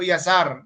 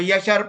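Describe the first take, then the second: First: The middle consonant is an 's' sound. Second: The middle consonant is an 'sh' sound. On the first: The speaker calls it wrong. "hindi po 'to Yasar" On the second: The speaker calls it right. "Yashar po ito"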